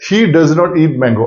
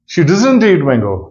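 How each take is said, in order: First: Does not is said as two full words. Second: Does not is contracted into one word. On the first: "कैसे बोला?" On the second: "native English में बोलता है"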